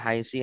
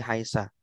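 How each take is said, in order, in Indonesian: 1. Kata ini berakhir dengan vokal i. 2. Kata ini berakhir dengan vokal a. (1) "tidak haisi" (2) "tidak haisi haisa"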